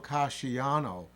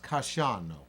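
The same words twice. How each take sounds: First: The 'i' and 'a' are said as separate syllables. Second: The 'i' and 'a' merge into one syllable. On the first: The speaker calls it wrong. "So you don't go Casciano in Italian" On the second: The speaker calls it right. "it's pronounced Casciano"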